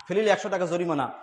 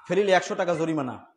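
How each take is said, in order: Both takes have the same delivery.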